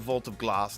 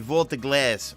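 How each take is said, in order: First: It is said in an English accent. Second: It is said in a New York accent. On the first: "I always want to say Vault of Glass in an English accent" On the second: "my New York accent will say Vault of Glass"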